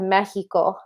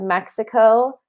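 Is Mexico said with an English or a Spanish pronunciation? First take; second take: Spanish; English. First: Mexico is said with a Spanish pronunciation. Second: Mexico is said with an English pronunciation. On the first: "I don't say" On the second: "in my normal English language"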